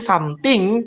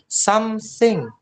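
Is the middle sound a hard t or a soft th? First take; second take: hard t; soft th. First: The middle sound is a hard t. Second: The middle sound is a soft th. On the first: The speaker calls it wrong. "Jangan bilang something" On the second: The speaker calls it right. "you have to say something. Jadi lembut gitu lah"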